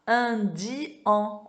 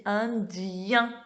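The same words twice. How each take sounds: First: INDIEN chopped into in, di, an, no glide; syllables split apart. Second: INDIEN slowly, with di sliding into yin; glided yin ending. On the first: Teacher showing the wrong reading, INDIEN split into in-di-an. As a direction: say INDIEN slowly as in-di-an, ending on a separate nasal an. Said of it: "On dit pas indien". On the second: Teacher showing the correct reading, INDIEN with gliding yin. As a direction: stretch INDIEN as in-diii-yin, joined by a y. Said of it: "on dit indien". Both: Shown as a demonstration.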